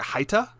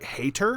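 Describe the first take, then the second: First: The first syllable sounds like 'high'. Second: The first syllable sounds like 'hay'. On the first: The speaker calls it right. "but it was it was like Haita, and I'm hoping I'm pronouncing that correctly now" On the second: The speaker calls it wrong. "I had called him like hater"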